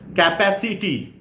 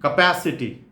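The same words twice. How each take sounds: First: It is said with an Indian English pronunciation. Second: It is said with a standard English pronunciation. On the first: The speaker calls it wrong. "Indian one, the wrong one" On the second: The speaker calls it right. "standard English pronunciation"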